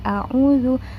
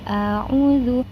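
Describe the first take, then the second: First: The first A sound is kept short. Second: The first A sound is drawn out long. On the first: The speaker calls it right. "Huruf A-nya tidak dipanjangkan" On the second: The speaker calls it wrong. "itu kan bunyi huruf A-nya itu menjadi panjang"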